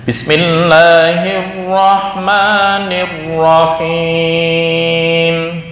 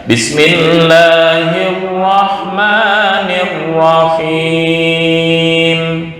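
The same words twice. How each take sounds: Both takes have the same delivery.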